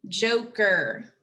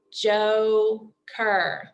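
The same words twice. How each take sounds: First: Said in the usual way. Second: "Joker" broken into a long JO, pause, then KER; split into syllables. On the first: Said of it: "are in the word joker". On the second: Shown as a demonstration. Teacher counting syllables by the chin, "Joker" split in two. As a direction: sound out "Joker" one slow syllable at a time. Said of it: "Remember to do your chin".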